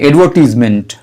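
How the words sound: It is said in a British accent. "British वाले इसे एडवर्टीजमेंट बोलते हैं"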